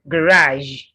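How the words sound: It is said in an American accent.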